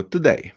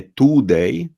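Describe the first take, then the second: First: Quick "today" as t'day; swallowed first vowel in "today"; reduced today. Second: Slow "today" with long oo; drawn-out Polish-style "today"; wrong full-vowel today. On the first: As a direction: say "today" with schwa, higher pitched. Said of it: "tylko today". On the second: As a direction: say "today" as too-day, U fully sounded. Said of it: "Czyli nie today". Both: Shown as a demonstration.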